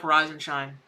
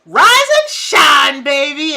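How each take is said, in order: First: Lower, matter-of-fact "Rise and shine"; blunt tough-love reply; deadpan retort. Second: Loud, slow, high crowing call; booming sing-song wake-up; rooster wake-up call. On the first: Retold or imitated. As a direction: toss it back dryly. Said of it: "we're like". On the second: Acted. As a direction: belt it like a rooster at dawn.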